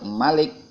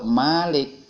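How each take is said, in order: First: The first vowel is short. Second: The first vowel is long. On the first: It means the one who reigns as king. "artinya yang merajai" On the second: It means the one who owns. "artinya yang memiliki"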